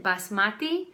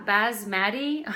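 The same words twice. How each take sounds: First: Basmati with an "ah" in the middle, bas-MAH-ti; accented basmati. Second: Basmati with a flat "mat", baz-MAT-ee, rising at the end; unaccented basmati. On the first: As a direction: basmati pronounced the accented way, "bahs-MAH-tee". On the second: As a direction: slowly try basmati with a z and the a of "cat". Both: Shown as a demonstration. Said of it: "I say it with an accent".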